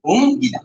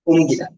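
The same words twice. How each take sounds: First: হুম held high and loud, then গীতা; sounded-out pronunciation. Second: Said in the usual way. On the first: Shown as a demonstration. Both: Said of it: "তাহলে কি হবে?".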